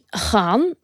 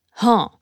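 First: The word begins with a g sound. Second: The word begins with an h sound. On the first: "Ik zeg namelijk niet gaan" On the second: "We gaan namelijk voor de H"

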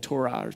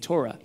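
First: The word is pronounced fully and carefully. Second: The word is pronounced in a relaxed, reduced way.

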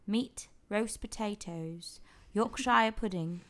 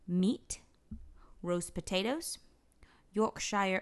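First: It is read in a put-on British accent. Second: It is read in her normal American accent.

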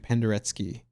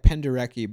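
First: The name is said with a Polish pronunciation. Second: The name is said with an anglicized pronunciation. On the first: This is how it is actually said in the original language. The speaker calls it right. "I think it's actually Penderecki. I think that's how you say it in Polish" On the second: This is how people commonly say it. The speaker calls it wrong. "It's said like Penderecki"

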